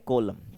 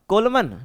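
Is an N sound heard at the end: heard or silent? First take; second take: silent; heard. First: No N sound is heard at the end. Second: An N sound is heard at the end. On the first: The speaker calls it right. "एन आपका silent रहेगा" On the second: The speaker calls it wrong. "तो इसको क्या पढ़ते हो आप, कोलमन ना"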